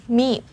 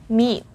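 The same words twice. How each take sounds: Both takes have the same delivery.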